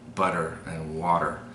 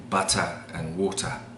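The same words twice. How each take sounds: First: The middle consonant is a soft D-like tap. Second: The middle consonant is a crisp T sound. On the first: "we use a D sound instead of a T sound" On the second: "the British would say"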